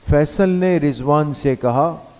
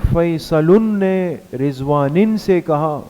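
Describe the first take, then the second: First: The names are said plain, without added endings. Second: The names carry added Arabic-style vowel endings. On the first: The speaker calls it right. "हम normal सीधी रवानी के साथ बात करते हैं" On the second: The speaker calls it wrong. "ऐसा हुआ है कभी? नहीं हुआ ना।"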